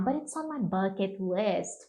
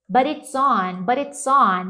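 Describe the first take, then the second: First: "but it's on my bucket list" softer, lower and slow; full-phrase pronunciation demo. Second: "But it's on" said as a linked chunk; pronunciation demo. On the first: Teacher puts the drilled chunk in context, "but it's on my bucket list" soft and low. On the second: Teacher drills an example for students, "But it's on" clearly linked. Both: Shown as a demonstration. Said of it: "O tanto de pronúncia".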